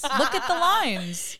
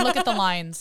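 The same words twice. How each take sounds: First: High, loud, drawn-out "Look at the lines"; hammed-up mock outrage. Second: Loud, amused "look at the lines"; mock critique. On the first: Acting out armchair judging of the makeup, exaggerated outrage. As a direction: stretch LINES out in high, loud pretend horror. Repeats the critique, more exaggerated. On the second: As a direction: point out the LINES as a loud pretend expert. Acting out armchair makeup critics.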